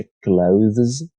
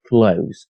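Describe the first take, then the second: First: Clothes with the TH sounded before the final Z; full TH plus Z. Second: Clothes with just a Z at the end, like "close"; simplified Z ending. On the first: Teacher showing learners the harder ending of clothes, full THZ. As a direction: say clothes in full, voicing TH and then Z. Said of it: "ای اس جمع رو هم تلفظ کنید". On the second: Teacher offering learners an easier clothes, TH reduced to Z. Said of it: "برای راحتی کار صرفاً این قسمت رو ز تلفظ کنید". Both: Shown as a demonstration.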